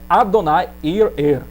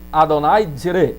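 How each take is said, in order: First: The last word is split into separate parts. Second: The last word is rushed and joined together. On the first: The speaker calls it right. "o mais certo ainda é" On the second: The speaker calls it wrong. "se você apressar a palavra... porque você vai juntar"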